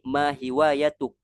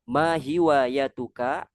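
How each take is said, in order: First: The phrase ends on a bare k sound. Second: The final k is followed by a vowel.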